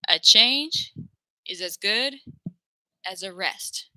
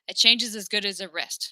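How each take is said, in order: First: It is spoken slowly and carefully. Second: It is spoken quickly and casually. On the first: "this is going to sound like" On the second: "if I'm speaking fast"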